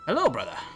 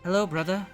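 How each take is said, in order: First: It is said in the speaker's plain voice. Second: It is said in a put-on female character voice.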